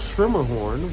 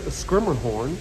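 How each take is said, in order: First: The name begins with a 'shir' sound. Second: The name begins with a 'skir' sound. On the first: "like a German pronunciation" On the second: "kind of like an Americanization of a German slash Dutch pronunciation"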